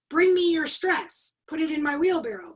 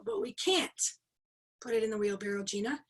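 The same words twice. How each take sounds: First: Emphatic trainer summoning an audience volunteer; retold stage command. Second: Mock audience protest. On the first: Calls volunteer up in retold demo. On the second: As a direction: imitate a helpless participant objecting to the trainer. Voices audience's protest to trainer.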